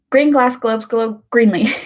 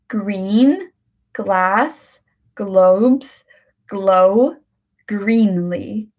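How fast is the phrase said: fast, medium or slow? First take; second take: fast; slow. First: The phrase is said quickly, words running together. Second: The phrase is said slowly, word by word. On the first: "now we try to say it quick" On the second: "let's start with the slow one"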